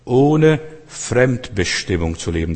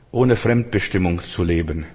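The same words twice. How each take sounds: First: Slow, deliberate delivery of "Ohne Fremdbestimmung zu leben"; slow emphatic repetition. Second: Said in the usual way. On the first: Real, not acted. Preacher defining freedom for the congregation, "Ohne Fremdbestimmung" slowly spelled out. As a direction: stretch out "Ohne Fremdbestimmung", word by word.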